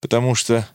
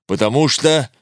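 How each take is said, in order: First: Thin, breaking потому что; the roar collapses into a tired, broken потому что; broken, weary voice. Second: Stern, roaring потому что; the roar still holding on потому что. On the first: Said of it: "тонким, надломленным голосом безнадёжно уставшей женщины". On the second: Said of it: "Львиное рычание внезапно сменилось". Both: A narrator's reading.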